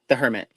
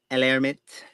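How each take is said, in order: First: Said in the usual way. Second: El Hermite said as a shaky French try, Hermite as air-MEET; attempted French. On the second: Shown as a demonstration. Tarot reader guessing the French card name, hesitant French. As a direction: sound out El Hermite the French way, unsure. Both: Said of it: "I don't know how to pronounce French words".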